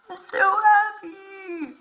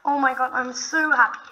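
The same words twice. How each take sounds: First: High, slow, stretched joy; drawn-out happy squeal. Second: Said in the usual way. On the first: Real, not acted. Finds village, repeats happy.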